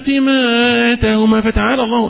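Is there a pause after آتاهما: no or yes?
no. The words run on without a pause. The phrase wrongly joins their words to God's. The speaker calls it wrong. "يبقى تقولش زي"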